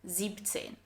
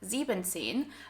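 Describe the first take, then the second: First: No en syllable comes before zehn. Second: An en syllable comes before zehn. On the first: The speaker calls it right. "siebzehn without the en in sieben" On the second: The speaker calls it wrong. "it's not ... siebzehn"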